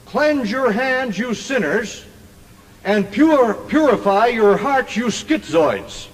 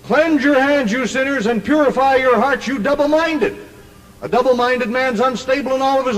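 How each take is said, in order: First: Slow, drawn-out preaching with pauses; slow scripture quote. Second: High, driving preacher's delivery; emphatic scripture quote. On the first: Preacher quoting James to the crowd in his own wording, slow and deliberate. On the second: Preacher repeating the verse for King James doubters, high and emphatic. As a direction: drive the verse home, pitched high without lingering. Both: Acted.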